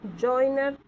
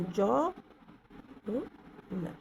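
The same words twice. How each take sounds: First: Said in the usual way. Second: जॉइनर drawn out on the joi glide; slow diphthong demo. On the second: Shown as a demonstration. Teacher stretches जॉइनर to show the diphthong. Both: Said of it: "इसमें डिफ्थांग है".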